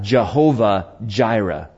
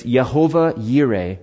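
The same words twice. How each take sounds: First: Jehovah Jireh said with J sounds, a bit slower; English pronunciation. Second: Yehovah Yireh said with Y sounds, as in Hebrew; Hebrew pronunciation. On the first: Pastor giving the usual English form, English pronunciation. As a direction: say Jehovah Jireh with hard J starts. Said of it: "or as we would say it". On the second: Pastor giving the Hebrew name, Hebrew pronunciation. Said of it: "Well, in the Hebrew". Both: Shown as a demonstration.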